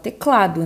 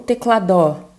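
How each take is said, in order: First: The stress is on the second-to-last syllable. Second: The stress is not on the second-to-last syllable. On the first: The speaker calls it right. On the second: The speaker calls it wrong.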